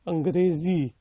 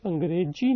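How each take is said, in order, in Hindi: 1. व्यंजन 'z' की ध्वनि है। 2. व्यंजन 'j' की ध्वनि है। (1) "जो इंग्लिश वाला जी होता है, जेड, वो है" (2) "अब ये अंग्रेजी नहीं है"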